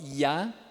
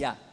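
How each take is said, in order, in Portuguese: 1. O primeiro som é sonoro, com as cordas vocais vibrando. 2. O primeiro som é surdo, soproso, sem vibração.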